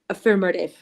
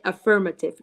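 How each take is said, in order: First: American accent with a soft, barely pronounced T. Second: British accent with a clearly pronounced T. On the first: "los de acento americano... No pronuncian tanto la T" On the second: "Y un British pronuncia más la T"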